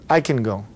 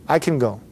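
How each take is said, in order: Both takes have the same delivery.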